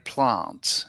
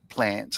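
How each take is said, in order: First: It is said with the Adelaide pronunciation. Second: It is said with the standard Australian pronunciation. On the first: "people in the central, like Adelaide, ... they say plants" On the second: "instead of"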